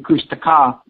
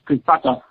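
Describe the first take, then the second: First: It is said with the mouth opening normally. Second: It is said through teeth held closed. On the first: "You can say Kushtaka" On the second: "you always talk with your teeth closed. So in the wintertime"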